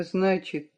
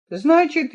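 First: "значит" muttered much softer, trailing; muttering. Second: Said in the usual way. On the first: Acted. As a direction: murmur "значит" to himself. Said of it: "в раздумье пробормотал". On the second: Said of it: "пробормотал".

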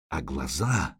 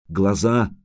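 First: Low, hushed, creeping dread; low looming threat. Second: Said in the usual way. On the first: A narrator's reading. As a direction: let it sink low and soft. Horror at the eyes.

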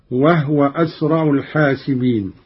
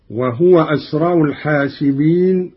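First: وهو as "wahwa", ha without a vowel; silent ha. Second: Said in the usual way. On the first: Shown as a demonstration. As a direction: close the ha of وهو before the waw. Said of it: "بإسكان الهاء". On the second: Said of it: "قرأ قالون بإسكان الهاء".

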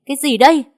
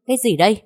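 First: CÁI GÌ ĐÂY much higher and louder; escalated shout of CÁI GÌ ĐÂY; loud angry shout. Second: CÁI GÌ ĐÂY raised in pitch; first indignant CÁI GÌ ĐÂY, held short of full shout; angry scolding. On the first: Mistress thrusts proof at maid, CÁI GÌ ĐÂY shouted. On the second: Mistress thrusts proof at maid, CÁI GÌ ĐÂY angry. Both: A narrator's reading. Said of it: "quát lớn".

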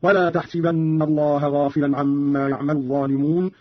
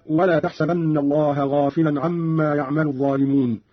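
First: تحسبن said tahsibanna, i after the s; kasra on seen. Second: Said in the usual way. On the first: Shown as a demonstration. Teacher shows Qalun's first instance, تحسبن as tahsibanna. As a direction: give تحسبن a short i on its seen. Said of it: "بكسر السين في الموضعين هكذا". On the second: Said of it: "قرأ قالون بكسر السين".

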